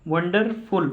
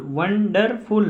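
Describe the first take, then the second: First: Said in the usual way. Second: wonderful split as वन, डर, फुल; teacher separating each syllable of wonderful; three separate syllables. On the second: Shown as a demonstration. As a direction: sound out wonderful in three drawn-out beats. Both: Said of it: "तीन बार आवाज़ निकली".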